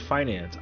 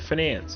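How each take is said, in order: First: It is said the usual, ordinary way. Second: It is said so it sounds like 'finesse'. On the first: This is how everyone else says it. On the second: This is how finance people say it.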